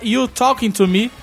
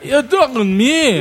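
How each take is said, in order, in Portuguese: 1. Cada som é pronunciado de forma simples e completa. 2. Os sons são engolidos, deixando a frase truncada. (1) "pra nós normais, a camisa é" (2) "ele vai suprimindo tudo"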